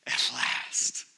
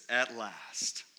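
First: Breathed out in a hushed whisper; awed whisper. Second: Said in the usual way. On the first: Acted. Adam on first seeing the woman, whispered relief. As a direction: whisper it as if the long wait is over. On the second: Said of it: "Adam, he says".

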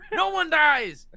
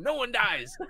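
First: "No one dies" said high and much louder; excited shout. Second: Said in the usual way. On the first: Real, not acted. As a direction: bellow "No one dies" the second time.

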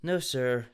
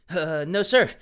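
First: A touch of gloom; gloomily. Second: "no, sir" rising high and loud; chirpy, loud "sir"; bright, not gloomy at all; loud perky reply. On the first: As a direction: mumble "No, sir" in defeat. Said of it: "Oh, gloomily". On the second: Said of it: "Dylan replied gloomily". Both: Shown as a demonstration.

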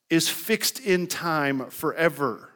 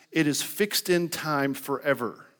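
First: Slow, deliberate, leaning on "in" and "forever"; slow emphatic stress. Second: Said in the usual way. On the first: Acted. Preacher driving home a point to the congregation, slow and emphatic. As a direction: land "fixed in time forever" word by word, slowly.

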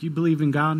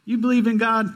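First: Said in the usual way. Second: High, loud astonished question; an astonished, rising "You believe in God?"; surprised disbelief. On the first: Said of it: "It's like". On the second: Retold or imitated. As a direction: sound amazed that he believes. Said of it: "He's like".

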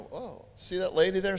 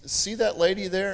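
First: Surprised echo. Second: Said in the usual way. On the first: Retold or imitated. Retelling how he answered the Spirit, mildly startled. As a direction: echo it back in mild surprise. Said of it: "And I'm going".

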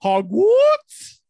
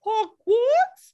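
First: Put-on high, loud, very slow joke accent; drawn-out mock posh; mock British accent. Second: Put-on high and loud joke accent; screamed mock accent. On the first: A podcaster repeating her cohost's word in a loud joke accent. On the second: A cohost repeating her question, screamed in a joke accent. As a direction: yell it like a cartoon. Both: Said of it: "everything is just screamed".

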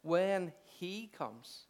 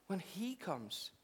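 First: Very slow, weighted when he comes; slow emphasis. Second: Quiet, very slow when he comes; soft slow echo. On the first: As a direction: stretch each word of When he comes. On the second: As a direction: hush and stretch When he comes. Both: Shown as a demonstration. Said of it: "simplicity of Jesus' words".

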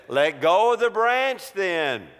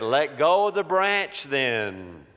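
First: Higher, firmer repeated command; raised voice from on high; insistent voice from above. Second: Slow, measured command at normal pitch; voice from above. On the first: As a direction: press the order home emphatically. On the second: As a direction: give a calm, deliberate order. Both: Acted. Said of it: "the voice said".

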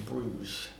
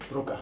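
First: "Bruges" said the English way, one syllable ending in a soft zh, broozh; "Bruges" as English speakers say it, broozh; English pronunciation. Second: "Brugge" said the Dutch way in two syllables, BRUG-guh, with a hard middle consonant; "Brugge" the local Dutch way, two syllables, stress on the first; Dutch pronunciation. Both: Shown as a demonstration. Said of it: "so I'll say it both ways".

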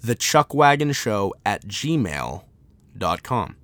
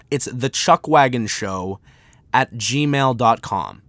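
First: Slow, lower repeat for note-takers; repeating the email address slowly; slow dictation repeat. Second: Slow and clear for writing down; dictating an email address at x0.6; slow dictation. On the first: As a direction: read it again slowly. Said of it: "Not A O L". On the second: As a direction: spell it out slowly. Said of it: "here is the email". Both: Shown as a demonstration.

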